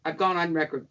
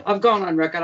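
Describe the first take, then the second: First: Said in the usual way. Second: Louder, punching "gone"; emphatic repeat. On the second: Real, not acted. Insisting to the interviewer she spoke out, louder and emphatic. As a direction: hit "gone" hard on the repeat.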